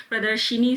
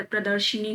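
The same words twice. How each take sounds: First: प्रदर्शनी said "pra-dar-shi-nee"; "shi-nee" ending on प्रदर्शनी; wrong inserted vowel. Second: प्रदर्शनी said "pra-dar-sha-nee"; short "a" after sh in प्रदर्शनी; "sha-nee" ending on प्रदर्शनी; correct vowel. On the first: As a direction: put an "i" after sh in प्रदर्शनी. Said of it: "प्रदर्शनी शब्द नहीं होता". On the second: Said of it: "पर प्रदर्शनी होता है". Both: Shown as a demonstration.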